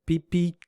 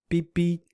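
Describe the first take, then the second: Both takes have the same delivery.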